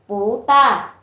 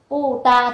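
First: The first syllable has a rising tone. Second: The first syllable has a falling tone. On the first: "thì chúng ta sẽ đọc là bù ta" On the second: "Ví dụ kiểu là hôm nay là bù ta"

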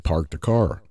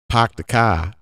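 First: It is spoken in a Los Angeles accent. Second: It is spoken in a Boston accent. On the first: "If I go to LA, I say" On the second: "if I go to Boston and I say"

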